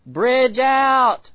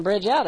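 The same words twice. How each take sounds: First: High, loud drawn-out shout; yelled warning. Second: Quick, higher imitation of a yell; retold shout, held back; mild mock yell. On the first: Acted. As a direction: call out an urgent warning of danger ahead. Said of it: "like the Holy Spirit yelling". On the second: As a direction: lightly echo a shouted warning. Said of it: "that somebody's yelling".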